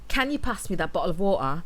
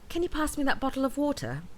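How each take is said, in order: First: It is spoken in a strong Mancunian accent. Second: It is spoken in a neutral, clearly articulated British accent. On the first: "the Manchester accent" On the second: "a more neutral sounding accent, articulating each sound more clearly and precisely"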